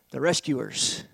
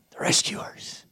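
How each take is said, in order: First: Low soft naming of the rescuers. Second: "The rescuers" whispered, no voice; whispering. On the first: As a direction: drop to a quiet "rescuers". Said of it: "the rescuers whispered repeat". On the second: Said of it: "repeated as a whisper". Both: Shown as a demonstration.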